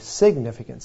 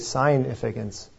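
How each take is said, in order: First: The first syllable sounds like sig, short vowel. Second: The first syllable sounds like the word sign. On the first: "but we say significance" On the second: "We could say significance"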